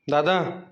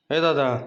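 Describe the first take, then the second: First: Slow, stretched call of "Dada"; "Dada" pulled long and slow, calling someone awake; drawn-out wake-up call. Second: Said in the usual way. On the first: Acted. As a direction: draw "Dada" out long to rouse him.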